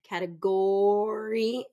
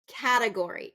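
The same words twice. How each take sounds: First: The stress is on the third syllable. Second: The stress is on the first syllable. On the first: The speaker calls it wrong. "as third syllable stress, and that's not correct" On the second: The speaker calls it right. "It's going to be first syllable stress"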